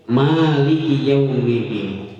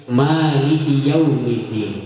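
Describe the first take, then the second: The two takes are said the same way.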